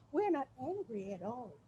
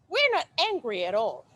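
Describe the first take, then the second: First: It is said in a calm, softer tone. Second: It is said in an angry, heated tone.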